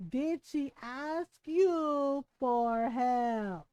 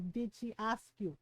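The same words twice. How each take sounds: First: Very slow, drawn out word by word; deliberate Filipino mom. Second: Low, soft questioning as a mom; quiet Filipino mom. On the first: Mom pressing her son on the question, slow and deliberate. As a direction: stretch each word like a pointed mom. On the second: Mom restating her question to her son, low and quiet. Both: Retold or imitated. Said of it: "in her little Filipino mom way".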